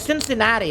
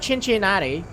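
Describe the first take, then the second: First: The word begins with a soft s sound. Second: The word begins with a ch sound. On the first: The speaker calls it right. "It's like a soft C" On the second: The speaker calls it wrong. "it's not Cincinnati. Chin, even that sounds weird"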